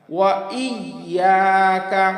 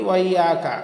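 First: Slow "ওয়া ইয়াকা", separate I, long YA; sounded hamza. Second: Quick "ওয়া ইয়াকা", I run into WA; dropped hamza. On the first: Teacher modelling the word, slow sounded hamza. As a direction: lean on the I after "ওয়া". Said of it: "হামজা ইয়া জের ই". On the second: Teacher showing common mistake, dropped hamza. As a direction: slide "ওয়া" straight into YAKA. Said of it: "আসলে এরকম হবে না". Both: Shown as a demonstration.

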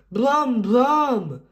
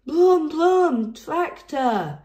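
First: Higher, louder brum; excited engine noise. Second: Much higher, louder shout; shouted tractor noise. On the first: George seeing big tractors, excited engine noise. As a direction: rev like a tractor. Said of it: "George was excited". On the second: George shouting at the big tractors, excited. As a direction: yell it at the tractors. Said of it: "he shouted". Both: A narrator's reading.

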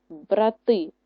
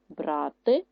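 First: БраТИ with the last syllable stressed; brah-TY, weight on the end; stress on second syllable. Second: БРАти with the first syllable stressed; BRAH-ty, weight up front. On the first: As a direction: land firmly on the ТИ of брати. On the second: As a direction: lean long on БРА in брати. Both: Shown as a demonstration. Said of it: "Наголос може змінити значення слова".

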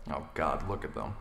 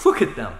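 First: Low muttered disbelief under the breath. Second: Louder, exasperated blurt with a fall; louder outburst. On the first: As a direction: mutter it to yourself, disgusted. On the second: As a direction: let it burst out, fed up. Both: Acted. Grumbling at fan across room.

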